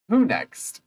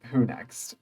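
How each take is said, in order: First: Bright who next. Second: Muttered who next. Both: Shown as a demonstration.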